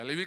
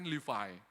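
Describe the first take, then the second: First: "Lewi" said LEH-wee, with a w; Indonesian pronunciation. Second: "Levi" said LEE-vye, rhyming with eye; English pronunciation. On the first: Preacher explains a tribe name to the congregation, Indonesian pronunciation. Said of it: "kalau di spelling dalam bahasa Inggris". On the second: Preacher shows congregation the English name, English pronunciation. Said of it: "dalam bahasa Inggris kan Levi". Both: Shown as a demonstration.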